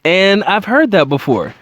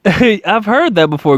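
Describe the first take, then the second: First: Said in the usual way. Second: Slow amused repeat through a chuckle; a knowing laugh, stretched out. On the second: Real, not acted. Host laughing at a familiar answer, slowly amused.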